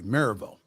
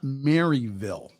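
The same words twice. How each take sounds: First: It is said quickly, compressing the syllables. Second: It is pronounced the way outsiders say it. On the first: The speaker calls it right. "if you pronounce it quickly" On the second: The speaker calls it wrong. "that's not how the locals pronounce it"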